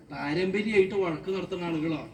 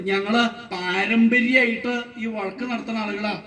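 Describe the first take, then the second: First: Taken-aback echo. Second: Declaring. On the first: Questioner echoes the claim, taken aback. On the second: Quarreller declares the family tradition. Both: Acted.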